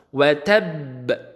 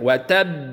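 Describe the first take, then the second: First: The final consonant is released with a strong bounce. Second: The doubled final consonant is held with no bounce. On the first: "baru kemudian kita bunyikan qalqalah" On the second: "kita udah ditasdidkan"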